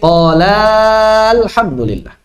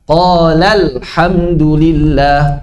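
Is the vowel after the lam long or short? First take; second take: long; short. First: The lam vowel is drawn out long. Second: The lam vowel is short with slightly raised pitch. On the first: The speaker calls it wrong. "Tidak dipanjangkan menjadi" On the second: The speaker calls it right. "ditinggikan sedikit suara lamnya"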